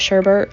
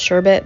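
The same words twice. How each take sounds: First: The word is said in a local pronunciation. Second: The word is said in its standard pronunciation. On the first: This is how the family says it. "but we call it sherbet" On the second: This is the official pronunciation. "it's actually pronounced sherbet"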